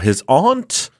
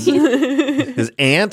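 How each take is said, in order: First: The word aunt is said with a British-sounding vowel. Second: The word aunt is said with an American-sounding vowel. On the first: "I'm not British" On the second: "I'm also not six"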